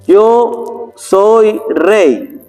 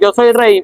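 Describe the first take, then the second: First: It is read very slowly and draggingly. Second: It is read very quickly and rushed. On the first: The reading sounds dull and tiresome. "Lento hace sosa la lectura" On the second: The listener cannot keep up with the reading. "O la otra"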